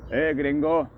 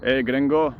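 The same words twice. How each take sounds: First: Gringo in a hammed-up Mexican accent, much higher; mock Mexican accent. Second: Gringo in a hammed-up Mexican accent, higher and louder; mock Mexican accent. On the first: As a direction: call out gringo again like a jokey Mexican. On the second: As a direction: call out gringo like a jokey Mexican. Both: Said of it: "with a Mexican accent".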